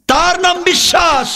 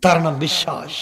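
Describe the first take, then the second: First: High, ringing preacher's shout; full-force pulpit cry; emphatic proclamation. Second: Said in the usual way. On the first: Real, not acted. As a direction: declare it on a high held pitch. Same line repeated at full force.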